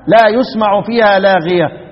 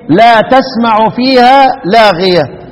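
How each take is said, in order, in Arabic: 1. يبدأ الفعل بصوت y وحركة u. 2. يبدأ الفعل بصوت t وبحركة. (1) "من قرأ بالياء قرأ إيه؟ لا يسمع فيها" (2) "الباقون يقرؤون إيه؟"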